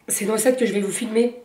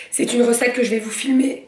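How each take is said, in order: First: Said in the usual way. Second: Hiccuping. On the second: Real, not acted. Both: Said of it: "pardon, j'ai le hoquet".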